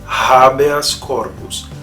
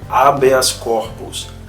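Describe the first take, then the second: First: The initial h is a light breathy sound. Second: The initial h is silent. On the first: The speaker calls it right. "O correto é" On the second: The speaker calls it wrong. "aquela pronúncia do pessoal, por exemplo, no latim jurídico ... está errada"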